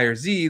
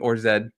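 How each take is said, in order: First: The letter is pronounced the American way, 'zee'. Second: The letter is pronounced the British way, 'zed'.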